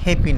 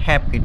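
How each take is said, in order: First: The middle consonant sounds like an f. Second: The middle consonant sounds like a p. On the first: The speaker calls it wrong. "এটা হ্যাপি না" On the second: The speaker calls it right. "এটা হচ্ছে হ্যাপি ঠিক আছে কারণ এখানে পি আছে এফ না"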